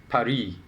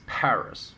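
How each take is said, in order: First: Paris with a silent final s; French pronunciation of Paris. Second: Paris with the final s sounded; English pronunciation of Paris. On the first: Host posing the last word, Paris said as pah-REE. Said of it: "most Westerners refer to as Paris". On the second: Host giving the Western name, Paris said as PARR-iss. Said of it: "most Westerners refer to as". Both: Shown as a demonstration.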